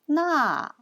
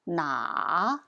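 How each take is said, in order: First: The tone falls sharply from high to low. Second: The tone dips low and then rises. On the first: It means that. "the fourth tone" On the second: It means which. "the third tone"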